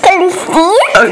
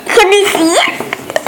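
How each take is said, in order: First: Said in the usual way. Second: Giggling question; laughing. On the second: Real, not acted. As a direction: ask through a giggle. Child asking, laughing.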